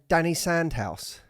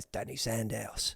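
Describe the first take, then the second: First: It is said in his ordinary accent. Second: It is said in a strong Cockney accent.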